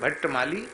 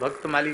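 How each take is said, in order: First: The middle cluster is lisped into a double 't'. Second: The middle cluster is said clearly as 'kt'.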